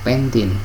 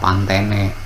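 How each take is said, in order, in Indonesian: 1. Namanya dibaca dengan bunyi asing, gaya Inggris. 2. Namanya dibaca sesuai ejaannya, gaya Indonesia. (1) "jadi kita baca sesuai dengan lafal bahasa asingnya" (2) "Jangan dibaca Pantene"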